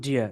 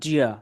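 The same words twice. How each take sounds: First: The words blend together into one 'didja' sound. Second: The words blend together into one 'didja' sound.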